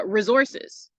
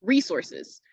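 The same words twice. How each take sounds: First: "resources" with a short, unstressed "ri" and a z sound; reduced first syllable. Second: "resources" as REE-sor-siz, long first syllable; Southern pronunciation. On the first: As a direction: say "resources" as ri-ZOR-siz. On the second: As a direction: stress the "ree" in "resources", with an s sound. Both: Shown as a demonstration. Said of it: "kinda like a Southern pronunciation".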